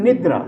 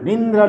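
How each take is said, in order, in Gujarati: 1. પહેલા અક્ષરમાં કોઈ અનુનાસિક અવાજ નથી. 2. પહેલા અક્ષરમાં અનુનાસિક અવાજ છે. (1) "ઉન અને નિદ્ર" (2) "નિંદ્ર નહીં"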